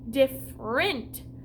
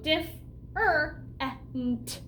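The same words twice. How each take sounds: First: The word is said quickly as one unit. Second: The word is split into three separate syllables. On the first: "If I would do this different, different, it'd be kind of hard to do" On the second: "I gotta pronounce it differently in my head to help me spell it out"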